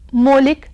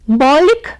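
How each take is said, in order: First: The first vowel is the closer 'o' sound. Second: The first vowel is the open 'au' sound. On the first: The speaker calls it wrong. "नहीं है" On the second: The speaker calls it right. "शुद्ध है"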